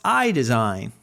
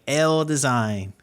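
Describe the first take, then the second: First: The name starts like the letter I. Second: The name starts like the letter L. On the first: The speaker calls it right. "but it's it's pronounced I Design" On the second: The speaker calls it wrong. "when I originally saw it, I was I was like L Design"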